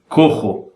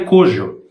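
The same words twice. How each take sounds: First: The j is a harsh throaty h sound. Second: The j is a soft zh sound. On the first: The speaker calls it right. "se pronuncia cojo" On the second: The speaker calls it wrong. "não se pronuncia cojo"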